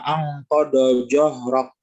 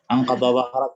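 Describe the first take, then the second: First: The second word begins with a 'j' sound. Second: The second word begins with a 'dh' sound. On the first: The speaker calls it wrong. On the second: The speaker calls it right.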